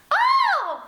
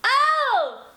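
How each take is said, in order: First: Much higher, louder light Oh; girly head-voice oh. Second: Higher, louder chest-based Oh; belted oh. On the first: Teacher demonstrating the wrong girly Oh. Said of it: "That's girly". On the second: Teacher demonstrating the right belted Oh. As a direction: call it out from the chest. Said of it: "That's not girly". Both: Shown as a demonstration.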